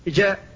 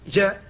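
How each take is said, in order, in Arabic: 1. الجيم منتشرة وقريبة من الشين. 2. الجيم منتشرة وقريبة من الشين.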